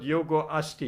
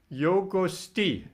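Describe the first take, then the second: First: The vowel before 'sti' is pronounced. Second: The vowel before 'sti' is dropped. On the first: The speaker calls it wrong. "not Yogo Asti" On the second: The speaker calls it right. "I would read it Yogo Sti"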